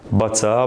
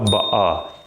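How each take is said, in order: First: The middle T is clearly pronounced. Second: The T is replaced by a glottal stop.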